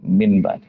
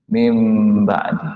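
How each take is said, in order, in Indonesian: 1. Bunyi sebelum b itu n. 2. Bunyi sebelum b itu m. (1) "tidak mau lagi min ba" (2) "Jadi mim ba"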